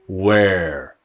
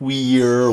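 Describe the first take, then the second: First: The vowel sound is long and drawn out. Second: The vowel sound is short and clipped. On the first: The speaker calls it right. "but where" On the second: The speaker calls it wrong. "Not where"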